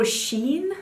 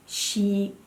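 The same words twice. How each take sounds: First: "Shein" said as SHEEN; one-syllable pronunciation. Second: "Shein" said as SHE-in, in two parts; two-syllable pronunciation. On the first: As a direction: run "Shein" together to rhyme with "seen". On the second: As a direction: split "Shein" slowly into "she" and "in". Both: Shown as a demonstration. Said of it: "How do you say that?".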